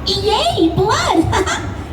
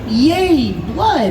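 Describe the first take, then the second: First: It is said with wild, extreme excitement. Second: It is said with little excitement or energy. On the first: The speaker calls it right. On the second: The speaker calls it wrong.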